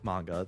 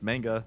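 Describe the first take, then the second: First: It is pronounced the Japanese-like way. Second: It is pronounced the Anglicized, Western way. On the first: This is how it is properly pronounced. The speaker calls it right. "once you know that it's pronounced as, like, manga" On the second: This is how a typical Westerner says it. The speaker calls it wrong. "it's just like the Western way of pronouncing it"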